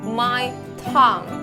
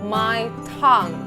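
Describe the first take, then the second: Both takes have the same delivery.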